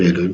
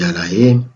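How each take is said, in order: First: The word is pronounced as Elohim. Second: The word is pronounced as Alaim. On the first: The speaker calls it wrong. "Ça ne se dit pas Elohim" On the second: The speaker calls it right. "ça se dit Alaïm"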